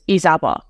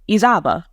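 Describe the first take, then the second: First: The name has its original Afghan pronunciation. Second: The name has a simplified American pronunciation. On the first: This is the name's original form. "My authentic Afghan pronunciation of my name" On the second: This form is easier for others to say. "it was simple, you know, people could say it"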